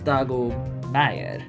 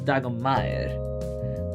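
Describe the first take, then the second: First: The words are separate, with a short M. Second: The words are run together, with a long M.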